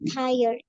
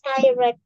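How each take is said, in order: First: The word has its standard English pronunciation. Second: The word is read as it is spelled. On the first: The speaker calls it right. "tapi yang benar adalah tired" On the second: The speaker calls it wrong. "karena kadang masih ada yang baca kayak gini guys"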